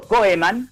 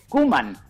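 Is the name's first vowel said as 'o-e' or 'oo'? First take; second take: o-e; oo. First: The name is read with 'o-e' as spelled. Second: The name is said with an 'oo' sound. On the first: This is how the name is written. "escrito Koeman" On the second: This is how the name is actually said. "pero se dice Koeman"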